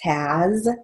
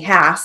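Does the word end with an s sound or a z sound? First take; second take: z sound; s sound. First: The word ends with a z sound. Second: The word ends with an s sound. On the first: The speaker calls it right. "has is H-A-Z" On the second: The speaker calls it wrong. "We don't say has"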